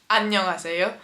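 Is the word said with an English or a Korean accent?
Korean. It is said with native Korean sounds. The speaker calls it right. "the word in Korean for hello is 안녕하세요"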